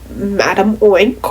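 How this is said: It is said with an American accent.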